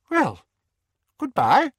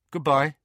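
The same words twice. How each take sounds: First: High, loud, abrupt parting; stiff aunt. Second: Slightly raised, simple goodbye; nephew's reply. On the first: Aunt Petunia leaving her nephew without looking, high and stiff. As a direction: say it in a high, strained aunt's voice. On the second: Harry returning his aunt's farewell, simply and lightly voiced. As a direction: answer in a youthful voice, only lightly raised. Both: A narrator's reading.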